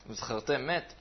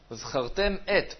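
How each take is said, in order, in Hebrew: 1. המ' הסופית נקשרת למילה הבאה. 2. שתי המילים מופרדות בבירור.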